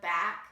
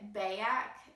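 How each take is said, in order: First: The word is said in a standard accent. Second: The word is said in a Wisconsin-like accent.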